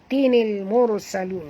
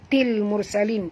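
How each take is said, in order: First: A linking 'ni' syllable is added before the l. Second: The nunation is dropped, with no linking syllable. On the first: The speaker calls it right. "Kita kena tukar kepada tinil" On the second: The speaker calls it wrong. "kita tak boleh baca til mursalin"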